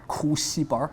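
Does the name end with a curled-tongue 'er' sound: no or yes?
yes. It ends with a curled-tongue 'er' sound.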